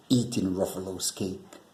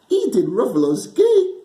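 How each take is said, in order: First: Said in the usual way. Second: Much higher and louder, teasing question that breaks into a laugh; mock the Gruffalo and cackle; sly snake teasing with a laugh.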